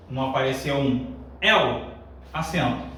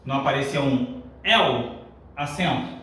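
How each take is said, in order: Both takes have the same delivery.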